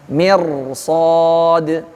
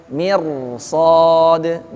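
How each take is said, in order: The two takes are said the same way.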